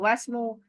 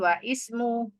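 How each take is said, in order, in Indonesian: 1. 'Wa' langsung menyambung ke 'smu' tanpa vokal. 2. Vokal 'i' terpisah dibunyikan setelah 'wa'. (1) "langsung saja wasmu" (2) "bukan wa ismu"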